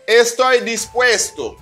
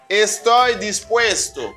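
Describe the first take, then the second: The two takes are said the same way.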